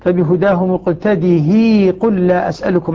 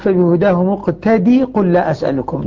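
First: The final h is kept with a long i. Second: The final h sound is left out entirely. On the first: "ابن ذكوان هنا يمد" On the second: "العلماء قالوا لماذا حذفت؟"

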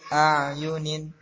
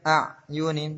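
First: The ain sound flows on without blocking. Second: The ain sound is blocked and cut short. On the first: The speaker calls it right. "tapi ayunin" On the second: The speaker calls it wrong. "jangan sampai mentok. Jangan sampai ayunin"

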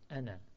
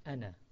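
First: The final vowel is cut short. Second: The final vowel is cut short.

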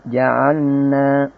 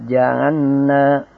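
First: The L is merged into a double N. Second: The L is merged into a double N.

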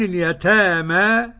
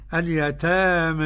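First: The final vowel is a plain open a. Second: The final vowel is raised toward e. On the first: "كالجماعة اللي هم غير مملين وغير مقللين" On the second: "اقرأ التقليل كده"

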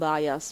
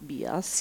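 First: It is pronounced the English way, like 'bye-us'. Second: It is pronounced the Italian way, like 'bee-as'. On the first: The speaker calls it wrong. "non bias" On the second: The speaker calls it right. "io mi ostino a pronunciarlo in italiano"

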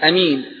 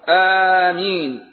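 First: A short first vowel with a single m. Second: A long first vowel with a single m. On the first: "والثانية بالقصر" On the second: "أفصحها آمين بالمد وتخفيف الميم"

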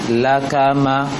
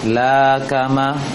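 First: All syllables are short and evenly timed. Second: The first syllable is drawn out long. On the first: The speaker calls it right. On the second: The speaker calls it wrong.

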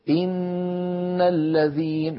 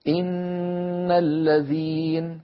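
No difference in how they are said.

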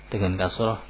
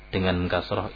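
Both takes have the same delivery.

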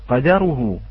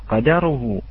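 No difference in how they are said.

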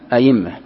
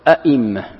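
First: The second glottal stop becomes a y sound. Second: Both glottal stops are fully pronounced. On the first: "أما الثانية تقلبها ياء" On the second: "تحقيق الهمزة الأولى والثانية"

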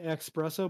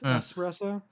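First: The word begins with an 'ex' sound. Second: The word begins with an 'ess' sound. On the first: The speaker calls it wrong. "A lot of people say espresso" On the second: The speaker calls it right. "but it's espresso"

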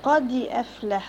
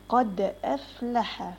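First: The d is followed by a short i vowel. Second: The d is clipped with no added vowel. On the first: The speaker calls it wrong. "ما اقولش قادي افلح قادي يبقى انا كسرت الدال" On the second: The speaker calls it right. "قد افلح قد مش قادي"

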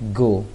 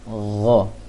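First: The first sound is a plain stop in the mouth. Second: The first sound is a breathy friction in the throat. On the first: The speaker calls it wrong. "kalau g bahasa Indonesia hanya di mulut saja" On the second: The speaker calls it right. "ada bunyinya di bunyi anginnya di tenggorokan"

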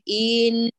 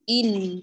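First: The vowel before the doubled letter is drawn out. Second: The vowel goes straight into the doubled letter. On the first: The speaker calls it wrong. "انتبهي للتمطيط من قبل المشدد إليه، لا نقول إن" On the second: The speaker calls it right. "إن مباشرة"

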